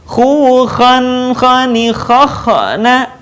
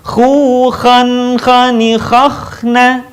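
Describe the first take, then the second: First: Chanted "khakhna" with an extra vowel after the middle kh; wrongly rebound the kh in "khakhna" before na; bouncing KH. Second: Chanted "khakhna" with the middle kh sustained straight into na; flowing KH. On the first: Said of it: "Contoh yang salah". ("khakhna" salah, kh memantul) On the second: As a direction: let the kh in "khakhna" flow, no extra vowel. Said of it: "Yang benar adalah mengalir suaranya". ("khakhna" mengalir tanpa pantulan) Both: Shown as a demonstration.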